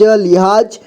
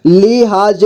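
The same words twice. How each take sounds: First: Said in the usual way. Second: लिहाज as लि-हा-ज; syllable by syllable. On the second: Shown as a demonstration. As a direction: sound out लिहाज in three parts. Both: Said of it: "एक ही बार में पढ़ेंगे".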